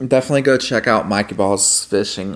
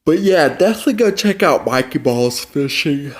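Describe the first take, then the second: First: Said in the usual way. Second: Through a yawn; words stretched by a yawn. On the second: Real, not acted. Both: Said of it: "why am I yawning".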